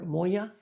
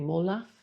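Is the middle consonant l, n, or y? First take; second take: y; l. First: The middle consonant is a y sound. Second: The middle consonant is an l sound.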